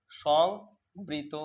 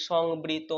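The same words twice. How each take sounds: First: Slow teacher model; drawn-out drill. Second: Said in the usual way. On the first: Shown as a demonstration. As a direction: hold সংবৃত very slowly, syllable by syllable. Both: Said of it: "কি রয়েছে বলো তো?".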